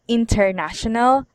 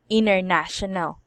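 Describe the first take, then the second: First: The T in the middle is pronounced. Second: The T in the middle is dropped.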